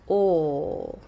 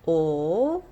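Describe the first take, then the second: First: The vowel is a pure, steady sound. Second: The same.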